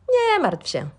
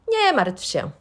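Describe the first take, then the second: No difference in how they are said.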